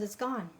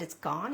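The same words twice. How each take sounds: First: "gone" falling at the end, softly settled; calm confirmation. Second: "gone" rising at the end, softly asked; disbelieving question. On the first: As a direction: answer "It's gone." with a quiet, final drop on "gone". Jesus's reply in retold dialogue. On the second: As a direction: ask "It's gone?" in quiet disbelief, lifting "gone". Retelling dialogue with Jesus. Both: Retold or imitated.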